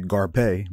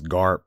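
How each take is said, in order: First: The name ends with a pay sound. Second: The name ends on a bare p sound. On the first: "but pay? Like, no" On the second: "that would be wasting that well-placed E right at the end"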